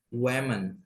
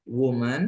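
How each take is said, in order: First: "women" as WE-men, tune dropping at the end. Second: "woman" as WU-man, tune lifting at the end. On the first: Teacher repeats the plural for class, "women" pronounced WE-men. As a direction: pronounce "women" with eh in the first syllable. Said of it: "kalau E bacanya women". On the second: Teacher repeats the singular for class, "woman" pronounced WU-man. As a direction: pronounce "woman" with oo in the first syllable. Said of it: "A itu bacanya woman ya". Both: Shown as a demonstration.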